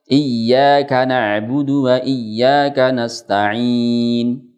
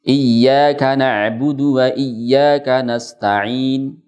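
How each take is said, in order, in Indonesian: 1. Vokal panjang di akhir ditahan selama empat harakat. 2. Vokal panjang di akhir ditahan selama dua harakat. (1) "Yang empat harokat" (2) "Saya contohkan yang dua harokat dengan ishmam"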